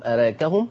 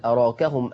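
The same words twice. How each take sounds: First: أراكهم with "raa" fronted toward "ree", rising as a question; taqlil pronunciation. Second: أراكهم with an open "raa"; fath pronunciation. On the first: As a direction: ask أراكهم with a half-bent alif. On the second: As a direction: say أراكهم with the alif fully open. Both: Shown as a demonstration. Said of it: "وتفتح وتقلل".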